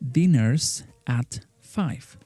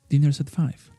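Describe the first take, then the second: First: Each word is said separately, without linking. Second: The words run together smoothly, fully linked.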